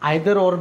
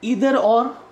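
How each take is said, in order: First: Either begins with an 'eye' sound. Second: Either begins with an 'ee' sound.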